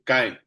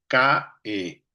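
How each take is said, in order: First: CAE run together as one syllable; vocales unidas. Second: "K E" as two slow syllables, ca, e; sílabas separadas. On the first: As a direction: glide straight from A to E in "cae". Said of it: "la unes y se cae". ("cae" en una sola sílaba) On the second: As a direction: split cae into CA and E with a pause. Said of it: "en cambio la haces una sola". ("ca-e" en dos sílabas lentas) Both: Shown as a demonstration.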